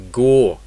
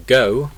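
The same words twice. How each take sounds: First: "go" with a pure, rounded vowel, no glide; Scottish O. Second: Said in the usual way. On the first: Shown as a demonstration. Teacher contrasting with British English, Scottish vowel in "go". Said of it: "Scottish English". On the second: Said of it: "British English".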